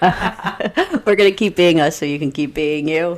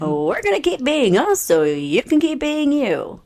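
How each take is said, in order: First: It is said in a flat, monotone voice. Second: It is said in a lively, showy voice. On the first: "that sounded monotone when I said that" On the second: "that sounded cheesy. You sounded like a radio host"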